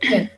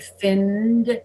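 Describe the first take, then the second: First: The N is short and the final sound is T. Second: The N is long and the final D is voiced. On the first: The speaker calls it wrong. "if I don't make the N longer, I end up pronouncing fin. It's too short and it's a T" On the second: The speaker calls it right. "extend that sound to be able to pronounce the D more easily"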